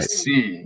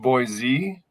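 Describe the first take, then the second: First: The middle consonant is an S sound. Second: The middle consonant is a Z sound. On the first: The speaker calls it right. "You make sure you say it with like a C" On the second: The speaker calls it wrong. "It's not Boise"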